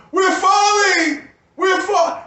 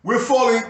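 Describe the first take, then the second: First: Much higher, louder, slow drawn-out yell of "We're falling!"; hollering alarm. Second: Said in the usual way. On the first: Retold or imitated. Yelling to everyone as we fall, a drawn-out alarmed holler. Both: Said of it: "I holler".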